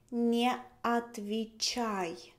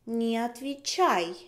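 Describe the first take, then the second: First: Slow model. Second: Said in the usual way. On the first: Shown as a demonstration.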